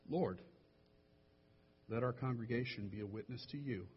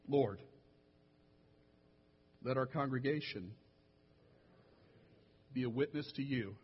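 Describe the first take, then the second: First: It is read at a normal pace. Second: It is read slowly.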